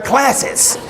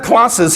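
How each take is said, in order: First: Classes with a flat short a, as in cat; American classes. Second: Classes with a long broad ah, clahsses; British classes. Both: Retold or imitated. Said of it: "he always kept his British accent".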